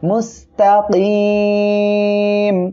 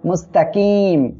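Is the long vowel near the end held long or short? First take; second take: long; short. First: The final long vowel is stretched out long. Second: The final long vowel is not stretched out. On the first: The speaker calls it right. "তিন আলিফ টেনে পড়তে হবে" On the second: The speaker calls it wrong. "এটা বললে কিন্তু ভুল হবে"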